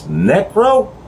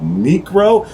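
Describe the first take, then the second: First: The C is not sounded as a K. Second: The C is sounded as a hard K. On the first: The speaker calls it right. "and it's" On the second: The speaker calls it wrong. "I pronounced the C as a C"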